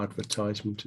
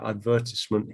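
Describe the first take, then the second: First: "advertisement" with a long "tize" as in "ties"; alternative pronunciation. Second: "advertisement" with stress on VER and a short "tis"; British pronunciation. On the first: Teacher offering students the other form, ad-ver-TIZE-ment. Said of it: "if you want to say it like that". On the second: Teacher modelling own form for students, stressed ad-VER-tis-ment. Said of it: "No, I say advertisement". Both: Shown as a demonstration.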